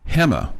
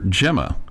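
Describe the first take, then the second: First: The name is said with a Spanish pronunciation. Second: The name is said with an American pronunciation. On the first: The speaker calls it right. "in Spanish that would be pronounced Gemma" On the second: The speaker calls it wrong. "because Americans don't you know don't always know how to say it properly, um, they would they would call her Gemma"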